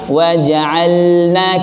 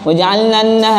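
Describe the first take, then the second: First: The L is pronounced clearly before the N. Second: The L blends into the following N sound. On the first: The speaker calls it right. "dibaca wajib ilhar, jelas ya" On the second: The speaker calls it wrong. "tidak jelas lamnya"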